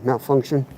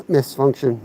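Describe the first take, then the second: First: "malfunction" said plainly with mal- start as the fix; corrected word. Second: "misfunction" said as a playful slip of malfunction; wrong word. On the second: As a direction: says "misfunction" with a mis- start, like a mistake. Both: Shown as a demonstration.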